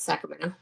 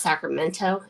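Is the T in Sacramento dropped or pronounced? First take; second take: dropped; pronounced. First: The T sound is dropped. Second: The T sound is clearly pronounced. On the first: The speaker calls it right. "We don't say our T's either" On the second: The speaker calls it wrong. "no one says"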